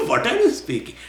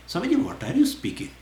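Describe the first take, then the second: First: High question broken by a laugh. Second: High, baffled question to the teacher; puzzled disciple. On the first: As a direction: laugh while asking it again, amused. Question repeated through laughter. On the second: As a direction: ask it like a confused student, pitched up. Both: Pretend.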